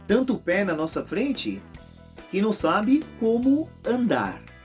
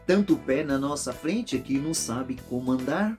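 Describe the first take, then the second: First: The line is said slowly, words kept apart. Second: The line is said fast, words run together. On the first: The words are heard as walking. "se ele cantasse de uma maneira mais devagar" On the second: The words can be heard as governing. "vai falar de uma maneira rápida"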